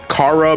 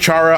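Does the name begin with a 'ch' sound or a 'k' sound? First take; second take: k; ch. First: The name begins with a 'k' sound. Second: The name begins with a 'ch' sound. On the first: Other people say it this way, as short for 'character'. "people will say Kara because it's short shortened for character" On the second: This is the speaker's own preferred pronunciation. "I personally pronounce it as Chara"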